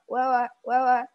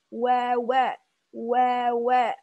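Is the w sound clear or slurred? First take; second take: slurred; clear. First: The w sounds are quick and unclear. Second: The w sounds are slow with rounded lips. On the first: The speaker calls it wrong. "Kadang kurang jelas kita ngucapinnya" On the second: The speaker calls it right. "Jadi perlahan-lahan gitu"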